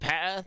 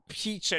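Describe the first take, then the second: First: The first vowel is short, like 'pet'. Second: The first vowel is long, like 'Pete'. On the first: The speaker calls it wrong. "not Petter" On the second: The speaker calls it right.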